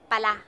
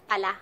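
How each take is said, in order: The two takes are said the same way.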